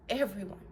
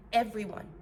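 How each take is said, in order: Both takes have the same delivery.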